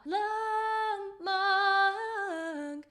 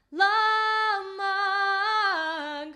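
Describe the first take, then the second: First: Sung, la then mang flipped high; sung with register flip. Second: La and mang sung, mang high and loud; sung, belt it all in mix; sung in full mix. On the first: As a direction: sing it like the singer. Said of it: "It's not". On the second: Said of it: "which is the whole thing in a mix". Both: Shown as a demonstration.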